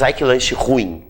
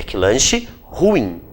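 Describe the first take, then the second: First: "ruim" run together with the stress on RU; slow, lower example with "ruim" as RU-im; wrong everyday pronunciation. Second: "ruim" slow, in two syllables, stressed on IM; corrected pronunciation. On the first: Teacher quotes what one shouldn't say, "ruim" stressed on RU. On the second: Teacher gives the correct version, "ruim" slowly stressed on IM. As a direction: draw out "ruim" as ru-IM. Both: Shown as a demonstration. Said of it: "aí não se diz".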